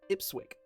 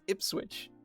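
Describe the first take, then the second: First: The word ends with a 'k' sound. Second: The word ends with a 'ch' sound. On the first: The speaker calls it wrong. "will be pronounced" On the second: The speaker calls it right. "But no, that's an H"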